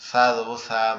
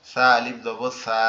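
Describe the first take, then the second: First: Said in the usual way. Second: Final "সা" stretched out very long; long vowel. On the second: Shown as a demonstration. Teacher drills alif after zabar, last "সা" held long. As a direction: spell it evenly, then hold "সা".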